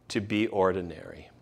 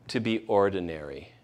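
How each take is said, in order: Both takes have the same delivery.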